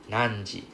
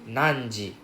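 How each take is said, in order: No difference in how they are said.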